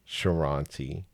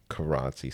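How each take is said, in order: First: The name begins with a soft Sh sound. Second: The name begins with a hard K sound. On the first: The speaker calls it wrong. "C is like Ch" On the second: The speaker calls it right. "So K is like K"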